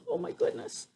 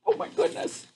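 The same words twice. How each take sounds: First: Very soft high oh my goodness; hushed amazement. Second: High whispered oh my goodness; breathy amazement. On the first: Reader stunned by the grasshopper, softer and hushed. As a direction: breathe it out, stunned. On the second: Reader amazed at the grasshopper, high and whispered. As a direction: gasp it under your breath, amazed. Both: Real, not acted.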